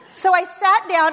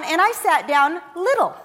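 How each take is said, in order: First: Said in the usual way. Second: Sat down little, said tiny; stress on little. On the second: Shown as a demonstration. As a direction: shrink the word little as you say it.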